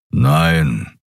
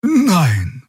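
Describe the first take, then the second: First: Low, gruff grumbled no. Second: High, simple honest no; truthful no. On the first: Kero grumbling his answer at the officer, low. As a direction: growl the word out low. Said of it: "brummte Keru". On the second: Xia answering the officer honestly, high. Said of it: "antwortete sie wahrheitsgemäß". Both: A narrator's reading.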